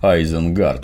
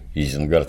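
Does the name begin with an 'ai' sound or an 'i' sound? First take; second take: ai; i. First: The name begins with an 'ai' sound. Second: The name begins with an 'i' sound. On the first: This is the original pronunciation. "самый ужас – Айзенгард вместо Изенгарда" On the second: This is the familiar local pronunciation. "Изенгард – это что, Изя, что ли"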